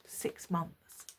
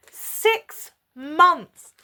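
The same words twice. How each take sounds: First: Low, very soft answer; understated retold reply. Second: Loud, high, each word apart; outraged repeat. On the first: Boyfriend admits how long it has been, low and quiet. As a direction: drop it quietly, almost under the breath. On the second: Real, not acted. Woman repeats his answer to her viewers, loud and outraged. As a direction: punch both words out in disbelief.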